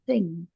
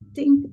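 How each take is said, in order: First: The word begins with the th sound. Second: The word begins without the th sound. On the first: The speaker calls it right. "Remember that the H in the word is" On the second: The speaker calls it wrong. "not think"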